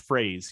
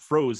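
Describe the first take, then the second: First: The name sounds like the word 'phrase'. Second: The name sounds like the word 'froze'. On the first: The speaker calls it right. "it's phrase" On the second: The speaker calls it wrong. "it's not froze"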